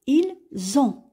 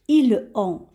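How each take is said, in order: First: A z sound links the two words together. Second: The words are said without a linking z sound. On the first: The speaker calls it right. "on va faire la liaison et on va dire" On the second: The speaker calls it wrong. "on va pas prononcer de cette façon"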